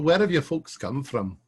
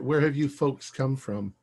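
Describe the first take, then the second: First: It is said in a put-on Scottish accent. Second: It is said in the speaker's ordinary accent.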